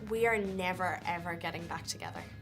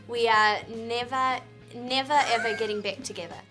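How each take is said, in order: First: It is said in her own natural accent. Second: It is said in an Australian accent.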